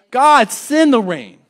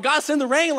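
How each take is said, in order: First: Loud, slow, defiant call; bold prayer. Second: Said in the usual way. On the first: Acted. Preacher challenging God for trials, loud slow call. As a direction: shout it up to the sky, slowly.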